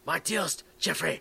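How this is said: It is read in a put-on character voice.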